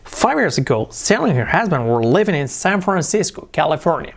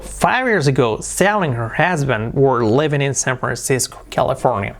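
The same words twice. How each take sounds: First: The pitch moves more, with livelier intonation. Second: The pitch moves less, with plainer intonation.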